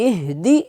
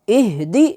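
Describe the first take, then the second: Both takes have the same delivery.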